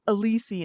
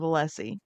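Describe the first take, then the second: First: The name is pronounced in a mangled, altered way. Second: The name is pronounced in its standard way. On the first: This imitates someone's habitual mispronunciation. The speaker calls it wrong. "say Alisi instead of Alessi" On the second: This is how the name is normally said. The speaker calls it right. "instead of Alessi"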